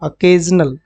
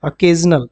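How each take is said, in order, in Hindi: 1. पहला स्वर हल्का 'uh' वाला है। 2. पहला स्वर हल्का 'uh' वाला है।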